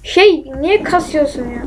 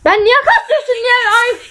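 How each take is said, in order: First: Said in the usual way. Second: High, strained squeal of complaint; exasperated high-pitched screech; shout turned scream. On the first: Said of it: "Diyecektim, bağıramıyorum". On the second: Real, not acted. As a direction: try to yell and let it shoot up into a scream. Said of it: "Bağırdım, çığlık oldu".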